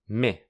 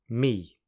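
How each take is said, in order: First: The vowel is short and weakened. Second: The vowel is long and fully pronounced. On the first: "then the weak form" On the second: "I'll firstly say the strong form"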